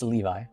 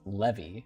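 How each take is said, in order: First: The name does not sound like levy. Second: The name sounds like the word levy. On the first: The speaker calls it right. "but no, it's it's Levi" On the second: The speaker calls it wrong. "like Levy attacks"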